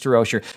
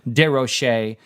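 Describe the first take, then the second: First: The name is given an English pronunciation. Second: The name is given a French pronunciation. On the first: "we'll stick with" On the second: "I like to pronounce it in the French way"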